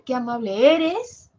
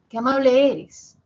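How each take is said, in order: First: The last word is said on a high pitch. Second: The pitch falls low on the last word. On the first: The speaker calls it wrong. "Así no lo puedo decir. Eres con un tono alto, no" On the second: The speaker calls it right. "Y baja, eres. Grave"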